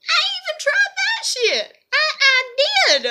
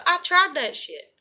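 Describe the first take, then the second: First: Squeaky, far higher exasperated cry; high-pitched protest. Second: Said in the usual way. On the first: Real, not acted. Vlogger insisting she tried accepting it, high-pitched protest. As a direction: shoot the voice way up in insistence.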